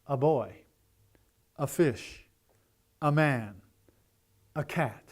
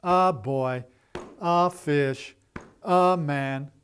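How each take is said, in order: First: Put-on light quick "a" run into a stressed boy, fish, man, cat; "A boy" as one unit, weight on "boy"; natural stress. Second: Put-on "A" given its own full, stressed beat before boy, fish, man; stilted, over-separated "A boy, a fish, a man"; slowed down, wrong way. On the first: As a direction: glide through "a" onto the noun. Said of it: "Here's how we talk". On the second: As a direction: drag out each "a" as a separate strong word. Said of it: "gonna sound like this". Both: Shown as a demonstration.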